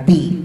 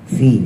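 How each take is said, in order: First: It begins with a closed-lip p sound. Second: It begins with a hissing f sound. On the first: The speaker calls it wrong. "bukan pi" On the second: The speaker calls it right. "ada suara desisnya"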